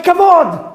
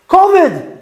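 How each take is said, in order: First: It is said with a modern Hebrew accent. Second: It is said with an Ashkenazi Hebrew accent.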